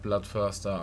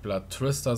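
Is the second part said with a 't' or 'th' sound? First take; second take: th; t. First: The second part begins with a th sound. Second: The second part begins with a plain t sound. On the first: The speaker calls it right. "statt Bloodthirster" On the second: The speaker calls it wrong. "dass ich Blood Trister sage"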